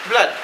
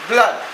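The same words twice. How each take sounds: No difference in how they are said.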